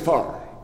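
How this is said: The word is flattened to sound like 'far'. "let's say far"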